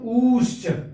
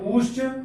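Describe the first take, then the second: First: The vowel is held longest of all. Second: The vowel is held somewhat longer. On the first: This is the prolonged vowel. "उससे और थोड़ा सा समय लगाएंगे" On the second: This is the long vowel. "उससे थोड़ा सा और समय लगाएंगे"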